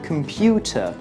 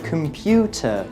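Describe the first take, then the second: First: The unstressed syllables are reduced to schwa. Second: The unstressed syllables are reduced to schwa.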